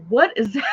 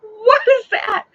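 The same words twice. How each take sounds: First: Startled question breaking into a squeal; retold alarm. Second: Loud, high, drawn-out shriek of a question; retold panic. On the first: Driver first notices something in the dark, retold alarm. Spots something moving while driving. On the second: Driver sees something moving in the dark, retold panic. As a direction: shriek it slowly in horror.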